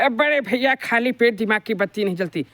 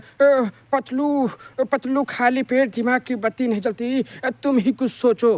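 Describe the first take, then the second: First: Motu's voice sounds happy and cheerful. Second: Motu's voice sounds sad and gloomy.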